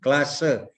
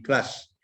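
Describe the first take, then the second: First: The final e vowel is clearly pronounced. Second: The final e vowel is dropped entirely. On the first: The speaker calls it right. "ada vokal E-nya itu dikeluarkan ya" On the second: The speaker calls it wrong. "jangan di kelas"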